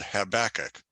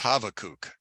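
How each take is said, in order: First: The middle consonant is a B sound. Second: The middle consonant is a V sound. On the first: "it's called Habakkuk" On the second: This is the original form of the name. "his real name is Habakkuk because the B is actually a, a V sound"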